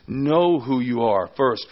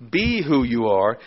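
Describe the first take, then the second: First: "Know" hit hard and drawn out; stress on KNOW. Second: "be" hit hard and held; stress on BE. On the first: Preacher putting knowing before being, stressing "Know". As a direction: slowly punch "Know" ahead of the rest. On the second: Preacher contrasting being with knowing, stressing "be". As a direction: punch "be", let the rest follow. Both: Shown as a demonstration. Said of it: "that's what Paul is emphasizing here".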